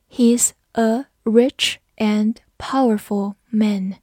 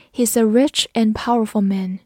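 First: Slow, word by word with pauses; slow read-along. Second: Said in the usual way. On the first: Shown as a demonstration. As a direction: model the sentence slowly for learners. (慢速逐词领读) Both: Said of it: "跟着我慢读一遍".

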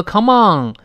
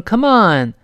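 First: "come on" as "kah-mong", back of tongue raised; wrong COME ON. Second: "come on" with light "come" and clean n; correct COME ON. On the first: Teacher warns learners, mispronounced "come on" as "kah-mong". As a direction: say "on" with a nasal ng ending. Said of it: "不要读come on". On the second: Teacher gives the right model, clean "come on". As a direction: end "on" on a clear n, tongue back down. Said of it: "读成come on". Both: Shown as a demonstration.

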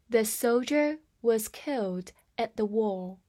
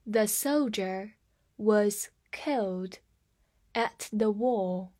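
First: Said in the usual way. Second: Slow, word groups split by pauses; slow read-aloud. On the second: Shown as a demonstration. Teacher models the sentence for learners, slow and measured. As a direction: read it slowly, phrase by phrase. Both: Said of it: "我们慢慢来读一下".

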